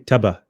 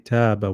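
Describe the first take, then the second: First: The vowel is short, with no lengthening. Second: The vowel is lengthened a medium amount. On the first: The speaker calls it wrong. "ignore the pull. We won't say" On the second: The speaker calls it right. "we'll pull it. So we we'll say"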